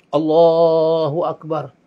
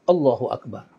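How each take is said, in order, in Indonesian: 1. Vokal dalam Allah dipanjangkan sangat panjang. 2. Vokal dalam Allah dibaca pendek. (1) "nak panjang sampai empat belas harakat" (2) "diucap tanpa alif. Tanpa harakat"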